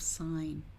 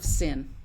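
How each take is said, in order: First: The vowel is a long i sound. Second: The vowel is a short i sound. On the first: It reads as an abbreviation for sine. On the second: It reads as the ordinary word sin.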